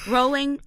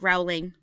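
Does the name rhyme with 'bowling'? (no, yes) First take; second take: yes; no. First: The name rhymes with bowling. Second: The name does not rhyme with bowling. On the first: The speaker calls it right. "Rowling rhymes with bowling" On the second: The speaker calls it wrong. "not Rowling"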